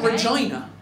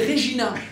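First: The second syllable sounds like 'jai'. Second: The second syllable sounds like 'jee'. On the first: The speaker calls it wrong. "It's not Regina" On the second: The speaker calls it right. "Genre la pizza"

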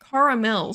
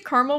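First: The word is said with three syllables. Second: The word is said with two syllables. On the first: This way sounds too fancy for a junk food. "caramel just sounds too fancy" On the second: This is the everyday, unpretentious way to say it. "I say caramel without the double A"

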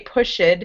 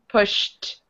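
First: The ending is an extra id syllable. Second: The ending is a plain t sound. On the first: The speaker calls it wrong. "you don't add a, you don't say pushed" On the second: The speaker calls it right. "after those sounds, you end your word with the t"

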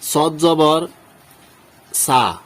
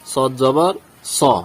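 First: The final vowel is a thin, open 'aa' sound. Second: The final vowel is thick, heavy and rounded. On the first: The speaker calls it wrong. "এখানে এভাবে উচ্চারণ করলে আমাদের উচ্চারণ সঠিক হবে না" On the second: The speaker calls it right. "তাহলে উচ্চারণ করতে হবে কি?"

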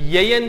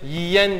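First: The first vowel sounds like an open 'e'. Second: The first vowel sounds like a narrow 'i'. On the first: The speaker calls it wrong. "siz bu sözcüğü yeyen diye mi telaffuz edersiniz?" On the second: The speaker calls it right. "Yoksa yemeğini böyle yiyen diye mi telaffuz edersiniz?"

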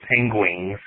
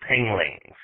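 First: The word is said as 'pengwings' with a w. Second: The word is said as 'penglings' with an l. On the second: "with an L"

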